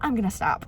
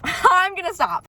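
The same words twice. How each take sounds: First: Said in the usual way. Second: Laughing it out, higher and slower. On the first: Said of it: "I'm getting on a rampage". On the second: Real, not acted. Catching herself ranting, laughing as she stops. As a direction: giggle through the promise to stop.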